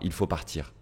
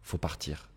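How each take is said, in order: First: The word il is pronounced at the start. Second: The word il is left out entirely.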